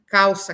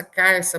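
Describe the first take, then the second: First: "calça" com l soando u: cauça. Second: "carça" com r no lugar do l; L vira R. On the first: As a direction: diga "calça" na forma padrão. ("calça" sem nenhum som de R) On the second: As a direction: diga "carça" com R no fim da primeira sílaba. ("carça", calça com rotacismo) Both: Shown as a demonstration. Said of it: "O L se transformar em R".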